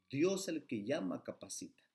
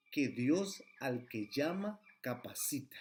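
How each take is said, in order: First: Said in the usual way. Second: Slow, each word weighed, rising on "Dios"; slow emphatic quote. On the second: Shown as a demonstration. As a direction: lean on "Dios" and draw the line out slowly. (cita lenta y enfática, subiendo en "Dios") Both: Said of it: "Así lo dice la sierva del Señor".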